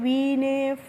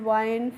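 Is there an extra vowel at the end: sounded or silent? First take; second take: sounded; silent. First: A final vowel is sounded after the n. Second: The word ends on the n, no final vowel. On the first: The speaker calls it wrong. "अगर हम इसका उच्चारण करते तो" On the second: The speaker calls it right. "हमें ई का pronunciation यहाँ पे नहीं करना है"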